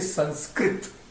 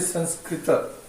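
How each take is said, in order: First: The word ends on the consonant t. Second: The word ends on a final vowel a. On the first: The speaker calls it wrong. "you don't say Sanskrit" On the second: The speaker calls it right. "You have to say Sanskrita"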